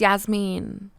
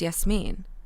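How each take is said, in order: First: The name is said with an Americanized pronunciation. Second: The name is said with its original pronunciation. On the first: The speaker hid the name's real origin. The speaker calls it wrong. "I didn't mispronounce my name" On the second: This is the name as it truly is. The speaker calls it right. "When really it's Yasmin"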